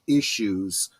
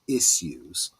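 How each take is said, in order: First: It is said in an American accent. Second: It is said in a British accent. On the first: The speaker calls it wrong. "the way the Americans say it" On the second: The speaker calls it right. "I should say it in the British"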